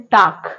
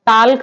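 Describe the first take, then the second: First: टाक with a silent l, "tawk"; सही उच्चारण, एल के बिना टाक; correct pronunciation. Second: टाल्क with the l sounded, "talk" with l; गलत उच्चारण, एल बोलकर टाल्क; wrong pronunciation. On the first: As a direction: drop the l, say टाक. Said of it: "क्या पढ़ते हैं?". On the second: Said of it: "टाल्क तो पढ़ते नहीं है". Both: Shown as a demonstration.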